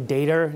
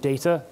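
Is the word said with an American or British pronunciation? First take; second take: American; British. First: It is said with an American pronunciation. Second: It is said with a British pronunciation. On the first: "I have developed an American twang" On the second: "I am a Brit"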